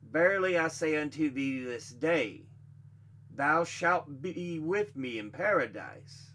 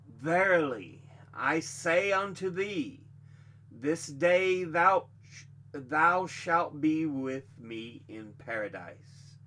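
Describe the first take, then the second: First: There is a pause after 'this day'. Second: There is a pause before 'this day'.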